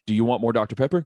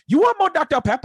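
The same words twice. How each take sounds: First: Said in the usual way. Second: Much higher, yelled mock Asian accent, fast; a kid yelling a crude fake Asian accent; retold mock Asian accent. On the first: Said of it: "That's what the guy asked". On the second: Kid yelling to waiter in crude mock Asian accent. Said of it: "most offensive Asian accent I've ever heard".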